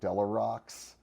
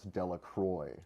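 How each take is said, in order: First: The name ends with a 'rocks' sound. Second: The name ends with a 'kwa' sound. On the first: The speaker calls it wrong. "he called him Delarox" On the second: The speaker calls it right. "I would pronounce Delacroix"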